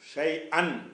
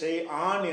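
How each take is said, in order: First: The final vowel is kept short. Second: The final vowel is drawn out long. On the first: The speaker calls it right. "அன் என்றால் நீட்டாமல் சொல்கிறோம்" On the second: The speaker calls it wrong. "இதை ஷை ஆன் என்று சொல்லக்கூடாது"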